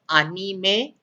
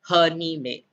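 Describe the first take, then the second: First: The word begins directly with a vowel sound. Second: The word begins with an h sound. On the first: The speaker calls it right. "it's pronounced as anime" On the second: The speaker calls it wrong. "and not hanime"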